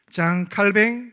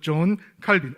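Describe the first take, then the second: First: The name is said with French pronunciation. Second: The name is said with English pronunciation. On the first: "프랑스식으로 발음하면" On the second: "영어식으로"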